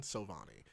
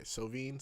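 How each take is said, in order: First: Sovani said so-VAH-nee; name as pronounced. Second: Sovine ending like "veen"; name as spelt. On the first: Correcting a friend's name, Sovani said so-VAH-nee. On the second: Contrasting a friend's name, Sovine ending like "veen". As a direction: say "Sovine" with no extra final syllable. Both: Shown as a demonstration. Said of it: "That's how you say his name".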